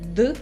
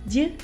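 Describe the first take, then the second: First: The d is hard, with a lower pitch. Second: The d is soft, with a higher pitch. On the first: "a dull and serious d" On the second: "their baby versions like d"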